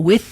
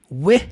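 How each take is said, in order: First: The th sound is strong and clearly pronounced. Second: The th sound is weak and barely pronounced.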